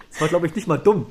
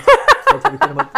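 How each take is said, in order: First: Said in the usual way. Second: Squeaky high. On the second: Real, not acted. Squeaks, then repeats line plainly.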